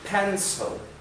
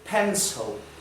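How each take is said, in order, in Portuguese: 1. A palavra é dita com pronúncia de nativo. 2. A palavra é dita com pronúncia de nativo.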